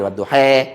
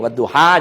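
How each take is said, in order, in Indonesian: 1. Vokal akhirnya condong ke 'e'. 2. Vokal akhirnya 'a' terbuka biasa.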